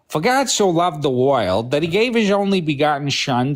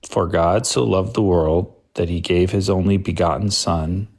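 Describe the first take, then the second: First: It is read in a put-on character voice. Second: It is read in the speaker's ordinary voice. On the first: "I do do voices, John" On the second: "I'll just read it like that"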